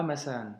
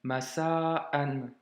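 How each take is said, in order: First: "masa'an" run together without a stop; quicker wrong demo of "masa'an", vowels merged; no blockage. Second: "Masa'an" broken before "an"; careful demo of "Masa'an" with a stop; hamza blocked. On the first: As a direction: slide "masa'an" into one long "masaan". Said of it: "et pas masa'an". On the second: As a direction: hold "Masa", catch it, then release "an". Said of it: "Tu vois, blocage". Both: Shown as a demonstration.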